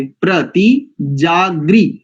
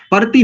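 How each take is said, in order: First: प्रति जागृ slowly with a clean प्र cluster; drawn out प्रति जागृ, each sound clear; प्रति with the र tight after प, slow; correct pronunciation. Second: प्रति said as पर्ति with a vowel slipped in; प्रति clipped as a quick two-syllable पर्ति; प्रति mispronounced, the cluster broken; wrong pronunciation. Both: Shown as a demonstration. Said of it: "प्रति नहीं करेंगे".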